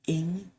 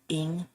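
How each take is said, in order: The two takes are said the same way.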